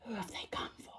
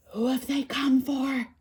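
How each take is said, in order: First: Hushed, ominous trailer whisper; eerie whispered repeat; movie advert whisper. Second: Slow, higher dramatic trailer line; ominous cinema-advert question; movie advert voiceover. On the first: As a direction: whisper it like a film advert's last line. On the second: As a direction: intone it slowly like a film advert. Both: Retold or imitated.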